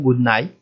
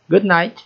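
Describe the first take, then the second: First: The final T sound is left out. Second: The final T sound is clearly pronounced.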